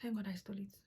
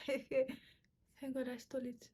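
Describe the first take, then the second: First: Said in the usual way. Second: Laughing through it, slow. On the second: Real, not acted. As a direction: giggle while confessing.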